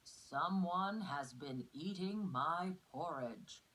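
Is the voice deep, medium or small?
deep. It is said in a big, deep voice.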